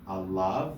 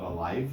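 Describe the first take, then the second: First: The word is said with no y glide. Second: The word is said with a y glide. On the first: The speaker calls it right. "This yud here, the second yud, is silent" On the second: The speaker calls it wrong. "It's not alive"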